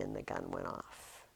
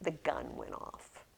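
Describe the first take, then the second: First: "the gun went off" whispered much lower and softer. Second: Said in the usual way. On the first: Shown as a demonstration. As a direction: hush it for the big moment.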